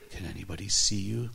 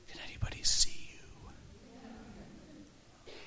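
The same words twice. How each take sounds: First: Said in the usual way. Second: Slow, drawn-out whisper; hushed, stretched-out whispered question; secretive whisper. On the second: Retold or imitated. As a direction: whisper it so nobody around overhears. Asks a vision secretly on airplane.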